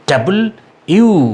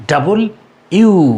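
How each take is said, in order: Both takes have the same delivery.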